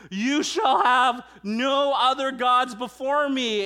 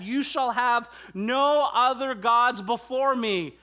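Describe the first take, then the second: First: Louder, higher, slow full shout; second take, cranked up to a shout; shouted command. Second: Loud, higher, slow declaration; first, already forceful take; emphatic quote. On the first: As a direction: bellow it like the voice from Sinai. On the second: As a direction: lay the command down firmly. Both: Shown as a demonstration.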